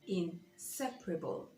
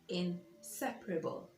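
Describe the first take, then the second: First: The stress is on the second syllable. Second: The same.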